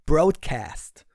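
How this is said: It is said with a broad American English pronunciation. The speaker calls it right. "so richtig blatt Englisch amerikanisch aussprechen"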